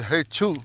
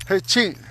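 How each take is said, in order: First: Hey, choo ending on "oo"; first sneeze word. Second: Hey, ching ending on an "ee" vowel; higher Hey, ching, "chee" sound at the end; second sneeze word. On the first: Teacher giving one of two sneeze words, "choo" version. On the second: Teacher giving the other sneeze word, "chee" version. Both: Shown as a demonstration. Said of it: "there's two ways I heard it said".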